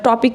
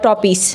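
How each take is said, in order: First: The word ends with a K sound. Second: The word ends with an S sound. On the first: The speaker calls it right. "টপিক রে" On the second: The speaker calls it wrong. "ভুলভাল ইংরেজি কয়"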